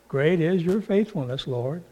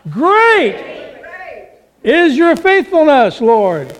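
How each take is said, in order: First: It is said in a flat, ordinary way. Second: It is said with a loud, enthusiastic "Great".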